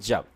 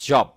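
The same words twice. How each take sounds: First: 'জব' with an open 'ah' vowel, 'jab'; American pronunciation. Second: 'জব' with a rounded 'o' vowel; British pronunciation. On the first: Teacher showing learners American 'জব', open ah vowel. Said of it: "এই যে আমেরিকার হচ্ছে জব". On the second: Teacher showing learners British 'জব', rounded o vowel. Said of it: "British হলে হতো জব". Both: Shown as a demonstration.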